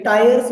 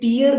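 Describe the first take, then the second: First: The vowel sounds like 'eye', as in 'tyres'. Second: The vowel sounds like 'ee', as in 'teers'. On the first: The speaker calls it right. "ये टायर्स बोल सकते हो आप इसको" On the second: The speaker calls it wrong. "ये टीयर्स नहीं होता"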